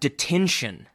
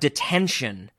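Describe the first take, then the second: First: The first syllable is a long 'dee' sound. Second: The first syllable is a short, reduced 'dih' sound. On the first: The speaker calls it right. "it literally says D, like D-E-E, hyphen tin, T-I-N, hyphen shun" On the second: The speaker calls it wrong. "I've been saying it wrong"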